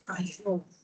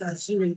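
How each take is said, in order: First: The R sound is silent in the word. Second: The R sound is pronounced in the word. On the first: The speaker calls it right. "The R is silent. So it's pronounced Azure" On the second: The speaker calls it wrong. "Some people pronounce it Azure, which is wrong"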